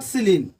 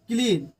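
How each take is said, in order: First: The word begins with an s sound. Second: The word begins with a k sound. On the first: The speaker calls it wrong. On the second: The speaker calls it right.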